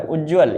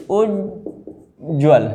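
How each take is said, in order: First: उज्ज्वल run together quickly as one word; wrong spelling read out. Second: उज्ज्वल very slowly split as उज्-ज्वल; both half ज shown. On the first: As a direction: say उज्ज्वल without separating the two ज. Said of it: "ये गलत है". (उज्ज्वल को बिना तोड़े बोलें) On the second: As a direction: pause after उज्, then ज्वल. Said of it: "दो आधा आधा जा बनते हैं". (उज्ज्वल को धीरे, उज्-ज्वल तोड़कर) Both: Shown as a demonstration.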